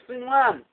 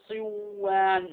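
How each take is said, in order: First: The n sound is clearly pronounced. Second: The n sound merges into the following w. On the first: The speaker calls it right. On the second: The speaker calls it wrong.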